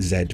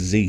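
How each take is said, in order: First: The letter is said the British way. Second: The letter is said the American way. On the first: It is the speaker's usual everyday pronunciation. "I normally pronounce it Z because I'm English" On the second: It matches the name of a well-known series. "it's a bit like Dragon Ball Z"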